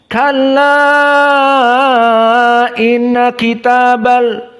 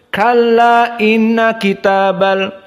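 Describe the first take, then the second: First: The vowel before inna is held six counts. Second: The vowel before inna is held two counts. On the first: "Adapun qiraah Wars enam. Dinamakan isba" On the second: "cukup dengan dua"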